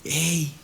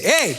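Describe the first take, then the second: First: Soft, low, gentle "hey"; tender parent. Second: Mock shout. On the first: Acted. Father bending down to his small child, tender and quiet. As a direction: coax a small child softly. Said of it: "cuando le hablas a un niño chiquito". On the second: Preacher showing how God does not speak, mock shout. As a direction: call out "hey" with a jump in pitch. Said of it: "Dios no grita".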